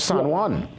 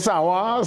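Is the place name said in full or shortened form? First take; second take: full; shortened. First: The name is said fully with all its sounds. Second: The name is clipped to two short syllables. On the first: This is the formal, proper form. "but it's San Juan" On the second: This is how locals say it. "We say Sawa"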